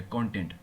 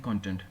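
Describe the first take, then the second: First: कंटेंट said kon-TENT, stress on the second syllable; content as in happy. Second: कंटेंट said KON-tent, stress on the first syllable; content as in material. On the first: Teacher to students showing the word for satisfied, stress on TENT. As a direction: say कंटेंट with the weight on TENT, ending low. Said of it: "ये भैया कंटेंटमेंट की feeling आ रखी है". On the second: Teacher to students showing the word for study material, stress on KON. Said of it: "ये जो हम पढ़ रहे हैं सब ये कंटेंट". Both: Shown as a demonstration.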